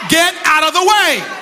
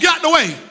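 First: The phrase is spoken more slowly. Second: The phrase is spoken quickly. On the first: The speaker calls it right. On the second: The speaker calls it wrong.

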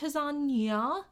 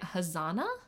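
First: The middle consonant is a 'ny' sound. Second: The middle consonant is a plain 'n' sound. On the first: "it's an Enye, which I would think means it's pronounced Hazania" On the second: "everything I heard was people pronouncing it Hazana"

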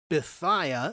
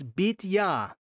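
First: The name has an anglicized English pronunciation. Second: The name has its original Hebrew pronunciation. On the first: The speaker calls it wrong. "in English, we would say Bithiah or something like that" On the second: The speaker calls it right. "But it's Bithiah"

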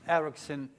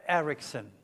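The two takes are said the same way.

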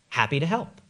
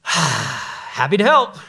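First: It is said in a cheerful, willing tone. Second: It is said with a sigh, sounding reluctant.

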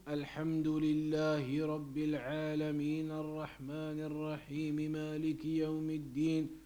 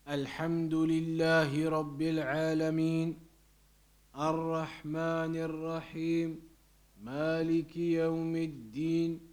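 First: All verses run together in one breath. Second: Each verse is followed by a pause.

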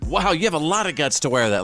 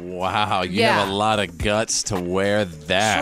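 First: The voice sounds admiring and sincere. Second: The voice sounds mocking and sarcastic. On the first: The speaker is proud of the listener. "Like, I'm proud of you" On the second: The speaker is putting the listener down. "I think it was all about the inflection. Did she say it like"

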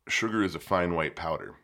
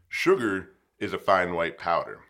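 First: It is said at normal, quieter volume. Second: It is said somewhat louder.

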